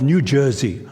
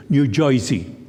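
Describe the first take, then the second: First: Said in the usual way. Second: New Jersey accent. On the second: Shown as a demonstration. Preacher mimicking locals' name for their state, New Jersey accent. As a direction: say Jersey as "Joisey".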